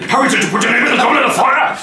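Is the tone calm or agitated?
agitated. It is asked in an agitated voice.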